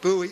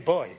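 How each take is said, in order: First: The word is said with an American pronunciation. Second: The word is said with a non-American pronunciation. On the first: The speaker calls it wrong. "in American English... You say buoy or something like that for boy" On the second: The speaker calls it right. "we say boy"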